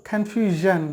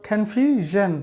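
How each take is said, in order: The two takes are said the same way.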